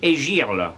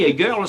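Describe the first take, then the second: First: It is said with a southern French accent. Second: It is said with a plain English accent.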